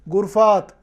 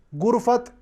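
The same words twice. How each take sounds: First: गुरफात with a long aa before the final t; plural reading. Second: गुरफत with a short a before the final t; short vowel in गुरफत, the singular form; singular reading. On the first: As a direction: stretch the aa in गुरफात, the plural form. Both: Shown as a demonstration. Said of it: "दोनों अल्फाज के पढ़ने का पूरा पूरा एहतिमाल".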